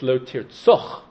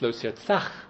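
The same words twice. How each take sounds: First: The last vowel is the pausal kamatz. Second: The last vowel is the ordinary patach. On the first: The words are read as one complete statement. "if you read it as one Dibur" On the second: The words begin a longer sentence. "If you read it as the beginning of a sentence"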